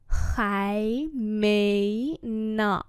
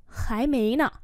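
First: Khái mấy nọ drawn out; slow demonstration. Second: Said in the usual way. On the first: Shown as a demonstration. Teacher repeats "Khái mấy nọ" for learners, slowly. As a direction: stretch each syllable of Khái mấy nọ.

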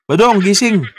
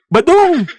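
First: Mock wake-up call. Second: High, laughing call of his name. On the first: Shaking an unresponsive guest awake. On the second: Acted. Host calling sleeping guest Badong, mock-worried high call. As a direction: call him awake with a laugh.

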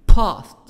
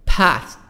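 First: PAST with a long British 'ah'; British-accented 'past'; British pronunciation. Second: PAST with the American short front A; American-accented 'past'; American pronunciation. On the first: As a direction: say PAST as 'pahst', British style. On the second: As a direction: say PAST with the A of 'cat', American style. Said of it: "الأمريكان". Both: Shown as a demonstration.

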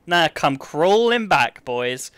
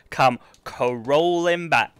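First: Slow, drawn-out gloat over come crawling back. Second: Even slower taunt, Come crawling back stretched out; gloating. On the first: Streamer gloating at chat who doubted, slow mocking taunt. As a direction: savour every word of the taunt. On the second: Streamer rubbing the win in to chat, slow gloat. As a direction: draw it out to rub it in. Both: Acted.

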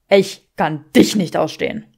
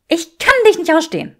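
First: Man echoing her hatred back; Draco's hatred. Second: Much higher, loud, stress on kann; woman declaring she can't stand him; Granger's hatred. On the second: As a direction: punch kann, pitched high. Granger's voice in quarrel. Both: Acted.

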